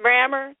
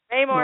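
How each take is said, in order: First: Rammer said RAM-mer, short flat a; corrected pronunciation. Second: Raymore said RAY-more, long ay in the first syllable; Midwest pronunciation. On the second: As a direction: say the name Raymore with a drawn-out ay, stress on RAY. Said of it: "That's just my Midwest accent". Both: Real, not acted.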